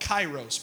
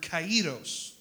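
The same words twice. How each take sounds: First: It is said in a common, anglicized way. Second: It is said in a more authentic Greek way. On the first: The speaker calls it wrong. "You might hear people call it kairos" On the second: The speaker calls it right. "but it's the word kairos"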